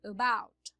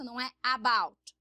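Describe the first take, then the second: First: "about" with a weak schwa at the start; correct about. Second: "about" with a full open a at the start; wrong about. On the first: Teacher modelling the right form for students, schwa. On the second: Teacher contrasting wrong and right for students, open a. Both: Shown as a demonstration.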